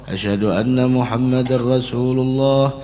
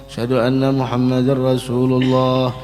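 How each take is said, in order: The two takes are said the same way.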